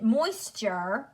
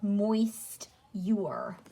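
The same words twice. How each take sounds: First: "moisture" as moys-cher, with a blended ending; everyday pronunciation. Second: "moist-ure" slowly split into moist and yure; spelling pronunciation. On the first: Teacher contrasting speech with spelling, "moisture" as moys-cher. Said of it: "So we pronounce it moisture". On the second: Teacher showing how it is spelled, "moist-ure" slowly split as moist-yure. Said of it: "but it is spelled". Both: Shown as a demonstration.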